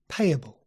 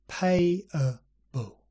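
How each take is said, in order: First: The word is said at normal speed. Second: The word is said slowly and drawn out.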